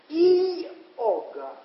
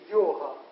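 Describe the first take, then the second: First: It begins with a separate 'ee' sound. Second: It begins with a 'yo' sound. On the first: "а пишется и-ога" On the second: "А в произношении, заметьте, йога"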